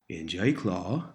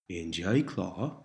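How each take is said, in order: No difference in how they are said.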